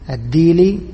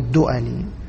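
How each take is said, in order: First: The name is said with a long 'i' vowel. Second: The name is said with 'u' and a glottal stop. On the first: "وأما الديلي فهكذا" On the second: "بضم الدال وكسر الهمزة"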